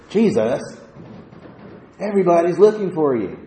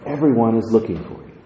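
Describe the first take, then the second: First: It is said in a frustrated, cranky tone. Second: It is said in a calm, plain tone.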